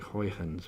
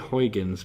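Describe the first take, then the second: First: The name is pronounced in an imitated Dutch way. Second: The name is pronounced the usual English way. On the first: "it's a Dutch name, so I think they say like Huygens or something" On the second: "now we say Huygens"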